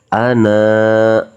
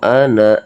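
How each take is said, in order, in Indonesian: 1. Vokal akhirnya dibaca panjang dua ketukan. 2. Vokal akhirnya pendek, langsung sambung. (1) "Jadi kita baca panjang dua ketukan" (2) "Jadi kalau kita wasol kan ini baca pendek"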